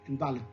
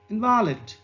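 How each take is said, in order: First: The stress is on the first syllable. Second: The stress is on the second syllable. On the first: It is a noun. "Here the primary stress mark is on I" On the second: It is an adjective. "then it becomes an adjective"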